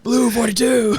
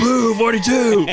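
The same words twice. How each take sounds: First: High call broken by laughter; laughing. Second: Loud, high, slow shouted play call; mock shout. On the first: Pretend. Repeating the joke call while laughing. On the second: Shouting a quarterback call at the bit. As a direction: bark it out like a quarterback.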